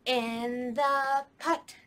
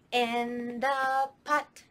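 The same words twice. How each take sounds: The two takes are said the same way.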